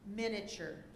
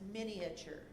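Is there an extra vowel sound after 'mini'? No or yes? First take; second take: no; yes. First: No vowel is heard between mini and ture. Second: An a vowel is heard between mini and ture.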